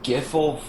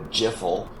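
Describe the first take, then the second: First: The word begins with a hard G sound. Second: The word begins with a soft J sound.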